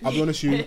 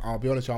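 First: It is said boldly and confidently. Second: It is said nervously, with hesitation.

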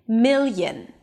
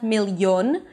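First: The second syllable has a reduced schwa vowel. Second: The second syllable has a full O vowel. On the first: The speaker calls it right. "a reduced vowel... a schwa" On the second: The speaker calls it wrong. "there is no O, it's not million"

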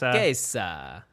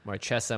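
First: The name is said with an Italian-like accent. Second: The name is said with a plain English sound. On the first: "Marquesa, with an accent" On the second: "we say Marchesa"

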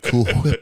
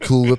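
First: It is said slowly and drawn out. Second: It is said quickly at a normal pace. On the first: This is how people in that region say it. "they say cool whip. It takes just an extra minute" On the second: This is the usual way of saying it. "Instead of saying"

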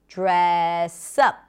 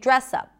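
First: The stress falls on the word up. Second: The stress falls on the word dress. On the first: The speaker calls it right. "we say dress up" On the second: The speaker calls it wrong. "We don't say dress up"

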